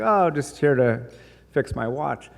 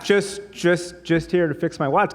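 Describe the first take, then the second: First: Said in the usual way. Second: Higher, stammering repeat; flustered. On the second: Retold or imitated. Customer repeating his excuse to the shopkeeper, flustered. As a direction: stumble through it, caught out.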